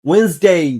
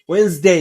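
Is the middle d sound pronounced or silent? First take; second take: silent; silent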